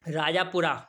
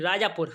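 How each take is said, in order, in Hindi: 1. शब्द का अंत अंतिम 'a' स्वर से होता है। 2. शब्द का अंत व्यंजन 'r' पर होता है।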